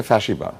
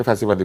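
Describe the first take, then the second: First: "ফ্যাসিবাদ" with a sh sound for the s; original pronunciation. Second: Said in the usual way. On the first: Shown as a demonstration. Panelist shows how the word is really pronounced, sh-sound in "ফ্যাসিবাদ". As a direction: say "ফ্যাসিবাদ" as fashibad. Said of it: "এটার আসল উচ্চারণ হচ্ছে". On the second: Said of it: "কিন্তু আমরা এটাকে ফ্যাসি বলি".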